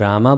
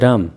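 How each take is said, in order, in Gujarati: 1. શબ્દના અંતે અંતિમ સ્વર છે. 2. અંતિમ સ્વર લોપાઈ જાય છે. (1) "તમે જો રામા બોલશો" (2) "તેઓ બોલશે રામ"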